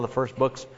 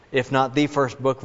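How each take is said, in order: First: Said in the usual way. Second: "the" said as "thee" in "the first book"; stress on THE. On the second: Real, not acted. Preacher singling out James's book as earliest, stress on "the". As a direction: lean on "the", pronounced "thee".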